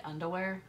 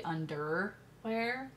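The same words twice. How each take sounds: First: Underwear with the wear of wear your clothes; her own underwear. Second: Underwear said the usual way; standard underwear. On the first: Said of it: "like, wear your underwear". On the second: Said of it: "how I say it". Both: Shown as a demonstration.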